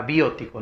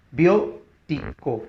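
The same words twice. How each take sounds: First: Said in the usual way. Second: Biótico slowly split as BIÓ-ti-co; syllable by syllable. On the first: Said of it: "penúltima palabra". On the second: Shown as a demonstration. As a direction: sound out Biótico with pauses, leaning on BIÓ. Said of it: "puesto que es esdrújula". (Biótico silabeado despacio, con fuerza en BIÓ)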